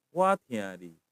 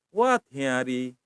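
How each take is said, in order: First: What hiari dropped very low, falling; low falling demo. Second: What hiari said slowly and lower; slow demo word. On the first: Teacher repeating the word with a falling tune. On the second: Teacher showing the Thai tone to students, slow and low. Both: Shown as a demonstration. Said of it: "intonasinya ke bawah".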